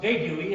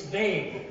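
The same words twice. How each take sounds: First: "vague-ui" with a rising, slowed "wee" on the end; mispronounced vague-ui. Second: "vague" as one falling syllable; correct vague. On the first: Learner lecturing his friend, drawing out "vague-ui". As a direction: say "vague-ui" as two syllables, slowly. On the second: Learner lecturing his friend, a one-syllable falling "vague". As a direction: clip it to just "vague". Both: Retold or imitated. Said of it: "the U E is silent".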